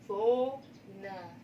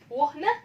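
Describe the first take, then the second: First: The h is silent and the vowel is long. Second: The h is sounded and the vowel is short. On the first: The speaker calls it right. "si H tidak diucap. Vokalnya ini diucap panjang" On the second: The speaker calls it wrong. "betul teman-teman ngucapinnya wohne? Tidak ya"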